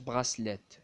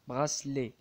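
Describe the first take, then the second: First: The final t sound is pronounced. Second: The final t sound is silent. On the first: The speaker calls it wrong. "ما تقراش براسليت" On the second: The speaker calls it right. "à la fin تقرا لي"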